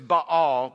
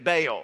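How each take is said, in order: First: The name is said with a Hebrew pronunciation. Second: The name is said with an English pronunciation. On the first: "In Hebrew, it's Baal, but almost nobody in church says it that way" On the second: "I'll just go with the way we say it"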